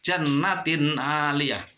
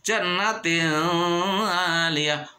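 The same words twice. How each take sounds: First: The n sound is pronounced clearly. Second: The n sound is blurred, not clearly heard. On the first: The speaker calls it right. "benernya adalah jelas" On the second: The speaker calls it wrong. "nggak boleh dibaca"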